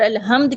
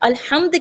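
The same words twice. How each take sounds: First: The h is a plain, light breathy sound. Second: The h is a harsh, breathy sound from the throat. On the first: The heat of a fire dies out. The speaker calls it wrong. "आग की हरारत का ख़त्म होना या मौत का तारी होना" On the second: All praise. The speaker calls it right. "अल्हम्द के मायने हैं तमाम तारीफ़ें"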